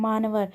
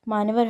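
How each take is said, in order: Both takes have the same delivery.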